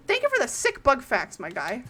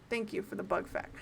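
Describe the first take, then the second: First: Playful, energetic gratitude; hyped-up thanks. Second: Soft, low-energy thank-you; understated, quieter acknowledgement; low-key thanks. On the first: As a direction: thank them with big enthusiasm. Repeats thanks with enthusiasm. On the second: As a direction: murmur thanks in passing. Thanks, then repeats enthusiastically. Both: Real, not acted.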